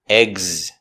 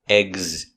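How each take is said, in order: The two takes are said the same way.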